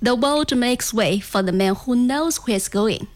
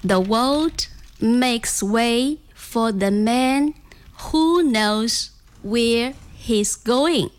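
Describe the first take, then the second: First: It is said fast. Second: It is said slowly.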